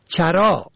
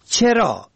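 First: چرا said "charaa"; fatha on first syllable. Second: چرا said "cheraa"; kasra on first syllable. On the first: Presenter teaching the word for grazing, چرا as "charaa". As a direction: open چرا with short a. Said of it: "به فتح اول". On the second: Presenter teaching the word for why, چرا as "cheraa". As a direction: open چرا with short e. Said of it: "به کسر اول". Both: Shown as a demonstration.

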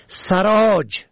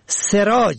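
First: سراج said "saraaj"; fatha on first syllable. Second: سراج said "seraaj"; kasra on first syllable. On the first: Presenter teaching the word for saddler, سراج as "saraaj". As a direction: open سراج with short a. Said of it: "به فتح اول". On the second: Presenter teaching the word for light, سراج as "seraaj". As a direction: open سراج with short e. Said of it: "به کسر اول". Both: Shown as a demonstration.

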